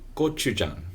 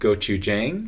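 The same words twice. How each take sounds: First: The word is said with Korean-style sounds. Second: The word is said with anglicized sounds. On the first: The speaker calls it right. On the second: The speaker calls it wrong.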